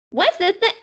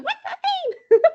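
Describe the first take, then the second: First: Put-on high, eager little girl. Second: Put-on very high, giggling little girl; excited squeal. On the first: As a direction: try the little kid voice again. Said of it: "not hitting my Sweetie Pie Thomas voice". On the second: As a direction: squeak the question through laughter. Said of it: "her going".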